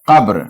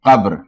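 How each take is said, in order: No difference in how they are said.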